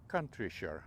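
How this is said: The name is said with a British pronunciation. "The British would say Countryshire"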